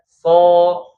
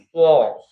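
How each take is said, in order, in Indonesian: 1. Bibirnya tetap direnggangkan, dengan s biasa. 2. Bibirnya dibulatkan dan dimajukan. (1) "S aja" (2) "pakai monyong-monyong bibir gitu ya yang so, so nggak perlu ya"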